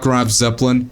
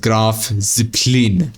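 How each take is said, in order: First: The name is pronounced in an English way. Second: The name is pronounced in a German way. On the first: The speaker calls it wrong. "not Graf Zeppelin" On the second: The speaker calls it right. "You pronounce it as Graf Zeppelin"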